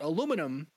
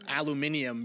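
First: The word is said with four syllables. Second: The word is said with five syllables.

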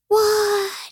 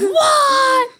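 First: It is said in a mild, calm way. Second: It is said in a strong, shocked way.

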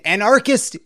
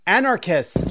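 First: The stress falls on the second, R syllable. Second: The stress falls on the first syllable. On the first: The speaker calls it wrong. "You're putting the stress at the wrong place. You were doing too much R" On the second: The speaker calls it right. "Yeah, there you go"

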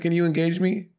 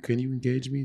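First: It is said loudly and forcefully. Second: It is said quietly in a sleepy voice.

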